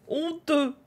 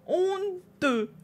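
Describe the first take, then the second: First: Playful scolding, higher; mock outrage. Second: Much higher, theatrical mock shame; hammed-up outrage. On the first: Streamer teasing the viewer who stole the answer, mock outrage. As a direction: tut at the thief in jest. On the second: Streamer hamming up shame at the viewer who stole the answer. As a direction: overplay the scandalised gasp. Repeats scolding, more hammed.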